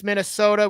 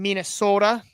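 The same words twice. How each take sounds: First: Said in the usual way. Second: Imitating a Minnesotan saying Minnesota; mock Minnesota accent. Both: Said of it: "can't pronounce Minnesota without saying Minnesota".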